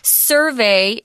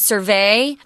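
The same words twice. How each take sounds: First: The stress is on the first syllable. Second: The stress is on the second syllable. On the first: It is the noun form. The speaker calls it right. "Survey is the noun" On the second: It is the verb form. The speaker calls it wrong. "It's not survey. That's a verb"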